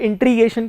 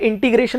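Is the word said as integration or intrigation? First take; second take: intrigation; integration. First: The r sound comes after the t. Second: The r sound comes after the g. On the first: The speaker calls it wrong. "लोग उसे इंट्रीगेशन कहते हैं" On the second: The speaker calls it right. "आगे जाके इंटीग्रेशन होता है"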